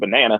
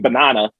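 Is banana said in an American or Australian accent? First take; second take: American; Australian. First: The word is said in an American accent. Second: The word is said in an Australian accent.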